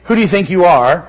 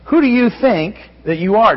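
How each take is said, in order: First: It is said in an accusing, challenging way. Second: It is said as a sincere, searching question.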